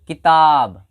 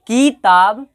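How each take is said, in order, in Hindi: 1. पहला स्वर छोटा है, दूसरा लंबा। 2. पहला स्वर खींचकर लंबा और उस पर जोर है। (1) "हर बार की पर कम समय लग रहा है" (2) "की पर अधिक समय लगाया जाए, जोर ज्यादा दिया जाए"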